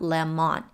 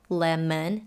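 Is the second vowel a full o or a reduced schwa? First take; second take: full o; schwa. First: The second vowel is a full o. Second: The second vowel is a reduced schwa. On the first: The speaker calls it wrong. "not lemon" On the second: The speaker calls it right. "where the O is pronounced as a schwa"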